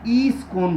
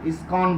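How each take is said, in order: First: It begins with a long ee sound. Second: It begins with a short i sound. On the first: "पूर्वी उत्तर प्रदेश के लोग जब बोलते हैं" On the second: "ISKCON बोलते हैं उसको"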